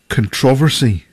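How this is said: It is said in the English way.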